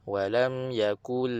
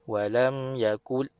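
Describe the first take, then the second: Both takes have the same delivery.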